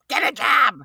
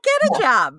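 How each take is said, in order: First: It is said in a harsh, scolding tone. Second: It is said in a light, encouraging tone. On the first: The parent is demanding and scolding. The speaker calls it wrong. "we'll try not to say it with that tone" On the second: The parent is supportive and helpful. The speaker calls it right. "We'll be more like"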